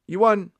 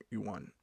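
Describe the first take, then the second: First: High, loud you won, punched on won; big triumphant you won; proclaimed. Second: Soft, low, throwaway you won; flat aside, much softer; muttered. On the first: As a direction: announce it like a game-show host. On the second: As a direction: mumble it to yourself. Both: Shown as a demonstration. Repeats you won differently.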